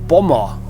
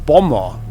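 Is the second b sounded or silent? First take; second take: silent; silent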